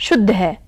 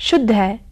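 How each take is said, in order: Both takes have the same delivery.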